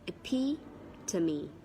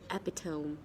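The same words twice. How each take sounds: First: The word is said with four syllables. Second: The word is said with three syllables. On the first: The speaker calls it right. "It has four syllables, so it is epitome" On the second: The speaker calls it wrong. "This one is normally mispronounced like epitome"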